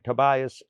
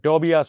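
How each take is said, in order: First: It is said with a native English pronunciation. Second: It is said the way Malayalis usually say it. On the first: It reflects training in diction and accent. "ടൊബായസ് എന്നും പറയുന്ന" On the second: It reflects ordinary Malayali usage. "മലയാളി വിളിക്കുന്നതിനെ"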